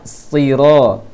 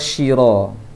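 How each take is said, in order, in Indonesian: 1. Kata ini diawali bunyi s yang tebal. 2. Kata ini diawali bunyi sh. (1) "Seharusnya siro" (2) "Yang sering salah orang baca adalah shiro. Terbaca shi"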